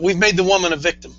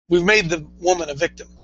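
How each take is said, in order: First: It is said at a quicker pace. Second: It is said at a slower pace.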